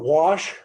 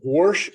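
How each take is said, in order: First: The word is said in a plain accent. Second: The word is said in a northern Iowa accent.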